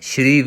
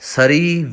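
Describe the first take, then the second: First: It begins with an sh sound. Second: A full vowel is sounded after the s. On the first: "ਸ਼੍ਰੀ ਵੀ ਗਲਤ ਹੈ" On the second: "ਸਰੀ ਵੀ ਗਲਤ ਹੈ"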